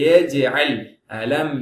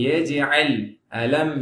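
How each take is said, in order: No difference in how they are said.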